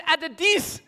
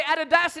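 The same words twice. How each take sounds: First: "Adidis" with "-dis" for "-das"; knock-off name "Adidis", ending in an i sound; misspelt brand name. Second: "Adidas" with its proper final "-das"; the genuine name, "Adidas", ending in an a sound; correct brand name. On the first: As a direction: land on the wrong ending of "Adidis", high and incredulous. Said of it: "It says Adidis". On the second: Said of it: "It doesn't even say Adidas". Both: Acted.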